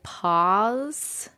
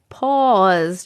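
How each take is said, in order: First: "pause" with an open "ah", like "pahz"; unsure, rising "pahz" for "pause"; other people's pronunciation. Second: "pause" with a drawn-out rounded "aw"; rounded, stretched vowel in "pause"; own New York pronunciation. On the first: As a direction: try out "pause" as "pahz", questioning. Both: Shown as a demonstration. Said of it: "You guys say, like".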